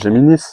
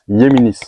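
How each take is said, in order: First: The word is pronounced the French way. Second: The word is pronounced the Spanish way. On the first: This is how most people say it. The speaker calls it wrong. "les gens disent Géminis" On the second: This is how it should properly be said. The speaker calls it right. "normalement, on le prononce Yéminis. Espagnol"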